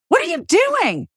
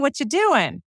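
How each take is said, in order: First: The tone sounds accusing and disapproving. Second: The tone sounds casual and friendly. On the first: The listener is doing something wrong. "that's clear from my intonation that you're doing something wrong" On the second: The speaker just wants to chat and hang out. "clear from my tone of voice that I'm just like, "What's going on? Let's hang out.""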